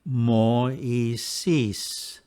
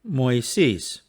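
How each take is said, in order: First: The word is said slowly, vowels slightly apart. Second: The word is said quickly, vowels blending smoothly. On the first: "I will first read them slowly" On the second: "And now at normal speed"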